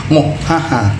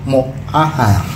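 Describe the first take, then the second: No difference in how they are said.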